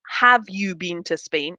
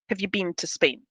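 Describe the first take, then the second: First: 'Have' is stressed with a full vowel. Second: 'Have' is unstressed with a weak schwa vowel. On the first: The speaker calls it wrong. "we don't emphasize it. So it's not" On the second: The speaker calls it right. "we use that schwa, the weak vowel"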